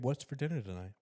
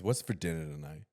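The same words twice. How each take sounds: First: It sounds warm and friendly, smiling. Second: It sounds rude, demanding and demeaning. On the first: The speaker is glad to see the person. The speaker calls it right. "With a nice smile" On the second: The speaker expects the person has done nothing. The speaker calls it wrong. "like very, very rude and demeaning"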